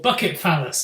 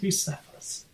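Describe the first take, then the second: First: The name is split into 'bucket' and 'phallus'. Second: The name is said with its usual pronunciation.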